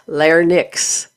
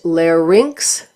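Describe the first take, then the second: First: The word is said as lar-nix. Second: The word is said as lair-inks. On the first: The speaker calls it wrong. "not larynx" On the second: The speaker calls it right. "This is pronounced larynx"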